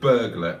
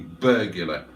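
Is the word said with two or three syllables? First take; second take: two; three. First: The word has two syllables. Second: The word has three syllables.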